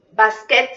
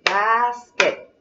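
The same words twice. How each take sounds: First: Said in the usual way. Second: "Basket" stretched into two beats, bas-ket; syllable by syllable. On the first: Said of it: "cuántas sílabas tenga". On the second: Shown as a demonstration. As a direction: draw out the first syllable of "Basket", then a clear ket. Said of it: "¿Cómo es?".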